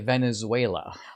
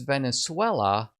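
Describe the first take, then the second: First: The word is said with an American English pronunciation. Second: The word is said with a Spanish pronunciation. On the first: Most people say it this way. "whereas most people would say Venezuela" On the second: A native Spanish speaker says it this way. "You say as Venezuela"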